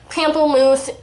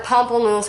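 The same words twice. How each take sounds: First: Pamplemousse with a flat "pam", ending in an s sound; alternate pronunciation. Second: Pamplemousse with an open "pom" first syllable; alternate pronunciation. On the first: Vlogger naming the blush shade, Pamplemousse said "PAM-pul-moose". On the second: Vlogger offering another way to say it, Pamplemousse as "POM-pul-mooz". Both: Shown as a demonstration. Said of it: "however you wanna say it".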